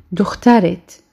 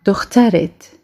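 The two takes are said the same way.

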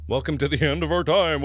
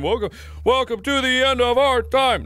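First: Said in the usual way. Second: Chanted higher and louder like a cult mantra; sing-song chant of the slogan. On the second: Shown as a demonstration. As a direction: intone it as a ritual chant. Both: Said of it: "it doesn't chant as well".

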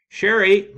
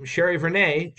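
First: A loud, high call across the room; young actress hails a colleague across the room, loud call. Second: Calling out again. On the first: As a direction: call his name over the dressing-room noise. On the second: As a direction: finish the call with the surname. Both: A narrator's reading. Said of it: "she called".

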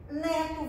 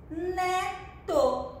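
First: Said in the usual way. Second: "Neto" drawn out high, the two syllables blended slowly; syllables joined. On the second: Shown as a demonstration. Teacher showing pupils how the syllables make a word, "Neto" drawn out. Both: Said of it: "Que palavrinha formou?".

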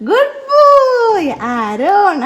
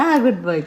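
First: Drawn-out praise. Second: Said in the usual way. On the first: Real, not acted. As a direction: sing the praise out long and delighted. Praising toddler Aaron.

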